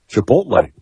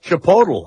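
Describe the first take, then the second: First: The last syllable is said as 'lay'. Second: The last syllable is not said as 'lay'. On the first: The speaker calls it right. "it's Lay" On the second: The speaker calls it wrong. "what did I call it?"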